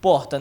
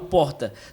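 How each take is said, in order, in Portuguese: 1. É dito com uma pronúncia padrão, aprendida na escola. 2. É dito com um sotaque regional caseiro, com a fala arrastada. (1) "na escola eu aprendi" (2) "Eu falo porta"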